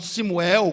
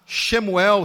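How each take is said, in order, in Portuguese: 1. O nome começa com som de 's'. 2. O nome começa com som de 'sh'. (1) "eles não conseguiam mais pronunciar o chi, ficavam si" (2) "quando iam falar Shemuel"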